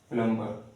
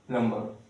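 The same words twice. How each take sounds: No difference in how they are said.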